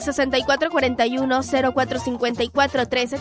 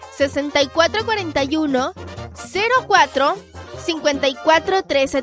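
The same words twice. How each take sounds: First: The number is read fast. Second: The number is read slowly.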